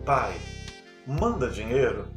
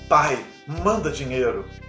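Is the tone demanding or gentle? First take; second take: gentle; demanding. First: It sounds soft and gentle. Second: It sounds harsh and demanding.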